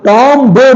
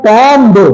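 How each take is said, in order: No difference in how they are said.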